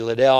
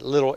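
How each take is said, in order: First: The name has its commonly heard pronunciation. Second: The name has its Scottish pronunciation, like 'little'. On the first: "Sometimes we say Liddell" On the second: "I think it's Scottish. You pronounce it Little"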